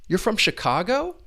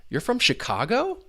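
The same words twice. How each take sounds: The two takes are said the same way.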